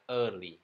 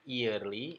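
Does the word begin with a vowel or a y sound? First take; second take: vowel; y sound. First: The word begins directly with a vowel. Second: The word begins with a y sound. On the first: The speaker calls it right. "Harusnya bacanya hanya early" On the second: The speaker calls it wrong. "ini salah"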